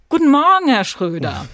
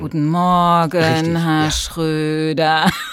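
First: The greeting sounds lively and eager. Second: The greeting sounds bored and drawn out. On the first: The speaker calls it wrong. "Viel zu motiviert" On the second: The speaker calls it right. "in so einer gedehnten Langeweile aussprechen"

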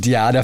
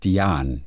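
First: The name ends with a pronounced vowel. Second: The name ends without a final vowel. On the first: The speaker calls it wrong. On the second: The speaker calls it right. "es ist stumm, französische Wurzeln"

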